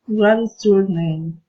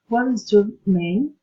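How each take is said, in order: First: "What is your name?" as a plain special question, stepping down from "What"; slow textbook question, "What is your name?"; question-word question tune. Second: "What is your name?" lifting at "name" with polite interest; friendly rising intonation. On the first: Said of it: "A special question for intonation". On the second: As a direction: ask "What is your name?" kindly, ending upward. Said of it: "Friendly interest, politeness, teasing intonation". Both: Shown as a demonstration.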